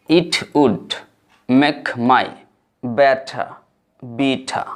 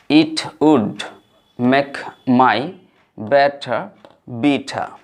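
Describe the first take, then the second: No difference in how they are said.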